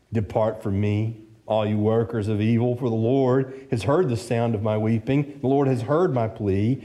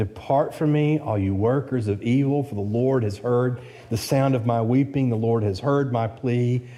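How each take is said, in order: Both takes have the same delivery.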